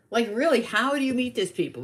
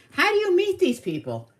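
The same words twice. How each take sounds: First: Raised, emphatic baffled question; insistent retold disbelief. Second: Very high-pitched, mock-baffled question; retold incredulity. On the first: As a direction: press the question, moderately high. Repeats the question more earnestly. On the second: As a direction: shoot the pitch way up in disbelief.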